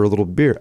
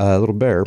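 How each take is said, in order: First: "beer" with a Chicago vowel, meaning bear; Chicago accent slips into "beer". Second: Said in the usual way. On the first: Real, not acted. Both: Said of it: "My Chicago accent's coming out".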